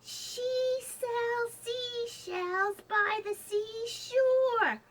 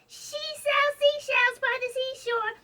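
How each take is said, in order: First: It is said at a normal speed. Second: It is said quickly.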